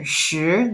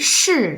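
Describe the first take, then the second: First: The pitch rises. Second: The pitch falls. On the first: "second tone" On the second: "fourth tone"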